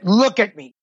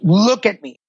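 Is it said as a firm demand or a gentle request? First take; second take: firm demand; gentle request. First: It is said as a firm demand. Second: It is said as a gentle request.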